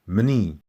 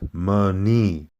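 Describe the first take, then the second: First: The m and n are joined without a vowel. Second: A vowel is inserted between the m and n. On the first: The speaker calls it right. "the way you say that is really quick" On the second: The speaker calls it wrong. "not Mani"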